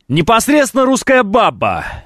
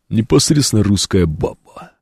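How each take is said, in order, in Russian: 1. Это сказано обычным голосом говорящего. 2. Это сказано наигранным голосом, подражая кому-то.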